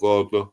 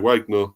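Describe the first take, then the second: First: Wagner is said like the composer's name. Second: Wagner is said unlike the composer's name. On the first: The speaker calls it wrong. "not Wagner, um, as composer" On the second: The speaker calls it right. "yeah, Wagner"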